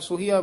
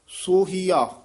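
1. ਪਹਿਲਾ ਸਵਰ ਛੋਟਾ ਉ ਹੈ। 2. ਪਹਿਲਾ ਸਵਰ ਲੰਮਾ ਓ ਹੈ। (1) "ਕਈ ਵਾਰ ਅਸੀਂ ਹੋੜਾ ਔਂਕੜ ਉਚਾਰ ਦਿੰਦੇ ਹਾਂ" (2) "ਪੂਰਾ ਦੀਰਘ ਲਾ ਕੇ"

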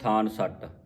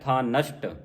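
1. ਇਹ ਸਾਦੇ ਸ ਨਾਲ ਦੋ ਹਿੱਸਿਆਂ ਵਿੱਚ ਵੰਡਿਆ ਹੈ। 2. ਇਹ ਸ਼ ਨਾਲ ਇੱਕ ਸ਼ਬਦ ਵਜੋਂ ਉਚਾਰਿਆ ਜਾਂਦਾ ਹੈ। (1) "ਇਹਨੂੰ ਕਈ ਸੰਗਤਾਂ ਪੜ੍ਹ ਜਾਂਦੀਆਂ ਥਾਨ ਸੱਟ" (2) "ਇਸ ਦਾ ਉਚਾਰਨ ਹੈ ਥਾਨਸ਼ਟ"

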